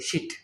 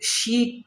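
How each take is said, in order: First: The vowel is short and clipped. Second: The vowel is long and stretched. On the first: The speaker calls it wrong. "এরকম করে বলি শিট, কিন্তু আসলে এটার উচ্চারণ এটা না" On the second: The speaker calls it right. "ওগুলাকে কিন্তু আমরা শিট আসলে উচ্চারণ করি না"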